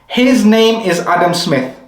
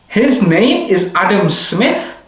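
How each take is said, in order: First: It is said with statement intonation. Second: It is said with question intonation. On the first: It states a fact. "That's a statement" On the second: It asks whether it is true. "That's a question"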